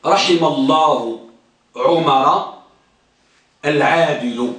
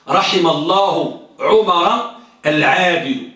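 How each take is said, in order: First: Slow, low recitation of the example; slow low chanting of a grammar example; recited example. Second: Slow repeat of the example, stressing عمر; steady slow recitation. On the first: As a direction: intone it like a textbook line, slowly. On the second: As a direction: say it again slowly, leaning on عمر. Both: Shown as a demonstration. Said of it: "ها، مثلا".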